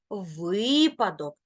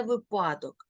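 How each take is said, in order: First: Випадок with long stressed ви; correct first-syllable stress. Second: Випадок mis-stressed on па; wrong second-syllable stress. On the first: Teacher giving the right form, stress up front. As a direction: stretch ви in випадок, slowly. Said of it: "ні в якому разі не випадок". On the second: Teacher warning against the wrong form, stress on па. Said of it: "ні в якому разі не". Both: Shown as a demonstration.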